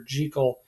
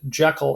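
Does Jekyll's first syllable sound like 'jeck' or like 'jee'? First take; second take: jee; jeck. First: The first syllable has a long 'ee' vowel. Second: The first syllable has a short 'e' vowel. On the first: The speaker calls it right. "show that you're in the know ... referring to it as" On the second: The speaker calls it wrong. "we immediately got it wrong and started calling it Jekyll and Hyde"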